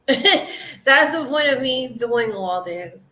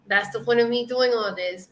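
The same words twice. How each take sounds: First: Laughing through the words. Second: Said in the usual way. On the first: Real, not acted. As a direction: say it with a real laugh breaking in. Laughing, then repeating it.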